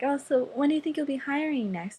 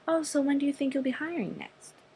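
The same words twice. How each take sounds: First: The question sounds open and outgoing. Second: The question sounds reserved and unfriendly. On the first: The speaker calls it right. "so just be very outgoing" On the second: The speaker calls it wrong. "not like that"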